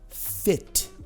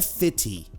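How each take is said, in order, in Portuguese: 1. A palavra termina limpa no som do t. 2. Um som de vogal extra vem depois do t final. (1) "Esse i tem que morrer" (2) "Não é fitty"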